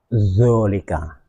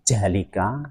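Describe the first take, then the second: First: The word begins with a heavy z sound. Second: The word begins with a j sound. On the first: "tidak boleh dibaca juga zolika" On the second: "tidak boleh dibaca jalika"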